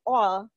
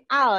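First: The vowel is an 'o' sound. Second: The vowel is an open 'a' sound. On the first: The speaker calls it right. "ini all bacanya ya. Pakai huruf O ya" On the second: The speaker calls it wrong. "bukan al ya, bukan Al Ghazali"

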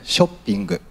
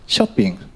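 First: It is said with Japanese pronunciation. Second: It is said with English pronunciation.

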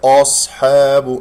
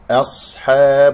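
First: The hamza and ha are made heavy like the sad. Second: The hamza and ha are light; only sad is heavy. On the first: The speaker calls it wrong. "وليس أصحاب" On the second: The speaker calls it right. "الحاء والباء والهمزة مرقق والصاد هي فقط المفخمة"

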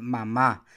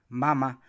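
First: The stress is on the last syllable. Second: The stress is on the first syllable.

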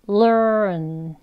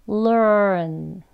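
Both takes have the same delivery.

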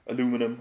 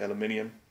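First: The word is pronounced the American way. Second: The word is pronounced the English way. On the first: "as the Americans say" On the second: "but I say aluminium, I'm English"

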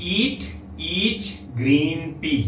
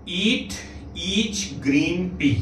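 No difference in how they are said.

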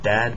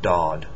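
First: The vowel is a flat 'a' sound. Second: The vowel is a deeper 'aw' sound. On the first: The speaker calls it wrong. "Not dad" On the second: The speaker calls it right. "the vowel after it is going to be more aw sounding"

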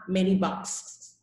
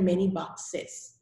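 First: The word 'boxes' is said with one syllable. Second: The word 'boxes' is said with two syllables. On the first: The speaker calls it wrong. "not many boxes" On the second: The speaker calls it right. "I have to pronounce the ES. So it's one box and many boxes"

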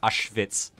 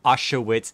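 First: The name begins with a V sound. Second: The name begins with an English W sound. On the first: The speaker calls it right. "A V or a W sounds like a V when you say it" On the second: The speaker calls it wrong. "It's not Auschwitz"

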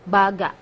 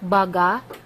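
First: The pitch falls at the end. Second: The pitch does not fall at the end. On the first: The speaker calls it right. "It's going down. The intonation is going down" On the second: The speaker calls it wrong. "Not baga"

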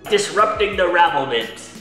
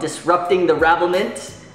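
First: It is said in a put-on Irish accent. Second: It is said in the speaker's plain accent.

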